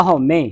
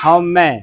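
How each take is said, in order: First: ਹਉਮੈ as "haumay", close e; single-lanv misreading. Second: ਹਉਮੈ ending in an open "mai"; double-lanv ending. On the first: Teacher shows how we misread it, ਹਉਮੈ with narrow ending. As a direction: narrow the last vowel of ਹਉਮੈ to e. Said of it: "ਹਉਮੈ ਹੁੰਦਾ ਇੱਕ ਲਾਂ ਦੇ ਨਾਲ". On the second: Teacher answers what the word becomes, ਹਉਮੈ with open mai. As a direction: open the final vowel of ਹਉਮੈ wide. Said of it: "ਮੰਮੇ ਦਲਾਵਾਂ, ਮੈਂ, ਮੈਂ ਦੀ ਆਵਾਜ਼". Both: Shown as a demonstration.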